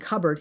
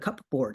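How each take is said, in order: First: It is said as one blended, reduced word. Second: It is said literally as two words, cup board. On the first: "instead of saying cupboard" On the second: "he would call it a cupboard. He would be very literal"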